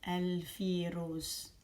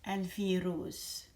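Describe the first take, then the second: The two takes are said the same way.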